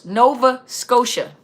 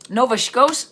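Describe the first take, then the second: First: Slow, careful "Nova Scotia" with Scotia as "Skoh-sha"; carefully fix the name "Nova Scotia"; corrected Nova Scotia. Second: Scotia said "Shkohs", clipped short with a rising tune; a quick slurred first try at "Nova Scotia"; stumbling on Nova Scotia. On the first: Correcting herself on a viewer's place name, slow and careful. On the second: Reading a viewer's place name aloud, fumbling the pronunciation. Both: Real, not acted. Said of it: "I'll mess up a word".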